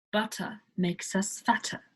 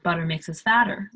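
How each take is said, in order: First: "Butter" with a crisp T and no R; British butter. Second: American accent, "butter" with a flapped T and an R, quick. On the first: Teacher demos the British T to learners. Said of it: "Instead of". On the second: Teacher contrasts the American version for learners. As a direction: say it the American way, T softened to D. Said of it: "like Americans say". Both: Shown as a demonstration.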